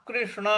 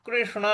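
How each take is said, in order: No difference in how they are said.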